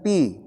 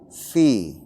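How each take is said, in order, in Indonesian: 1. Kata ini diawali dengan bunyi p. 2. Kata ini diawali dengan bunyi f berembus napas. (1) "Bukan pi" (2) "tapi fi ... ada keluar napas"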